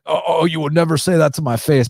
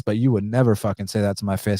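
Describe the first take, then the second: First: Higher-pitched sarcastic sing-song mockery; mocking whiny quote. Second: Said in the usual way. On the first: Host mocking a hater's cliché, high sarcastic whine. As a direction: parrot the cliché in a snotty mock voice. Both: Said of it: "Not to, not to be like".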